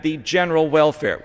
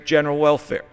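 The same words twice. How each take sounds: First: "general" stressed, "welfare" light; founders' reading, "general" stressed. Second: General welfare with the weight on "welfare"; stress on welfare. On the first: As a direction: hit "general" as the founders meant it. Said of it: "With emphasis on the word general". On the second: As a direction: lean on "welfare", let "general" pass. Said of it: "emphasizing the last word of welfare". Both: Shown as a demonstration.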